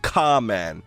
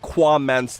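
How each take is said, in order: First: No 'w' sound follows the first 'k' sound. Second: A 'w' sound follows the first 'k' sound. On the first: This is how the name was originally meant to sound. "it's not supposed to be pronounced at all" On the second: This is the name the speaker chose to use. "that sounds better than"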